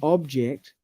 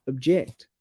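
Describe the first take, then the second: First: Weight on OB in OBJECT; first-syllable stress. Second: Light OB, heavy JECT in OBJECT; second-syllable stress. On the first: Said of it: "stress is on the first syllable". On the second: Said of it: "stress the second syllable". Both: Shown as a demonstration.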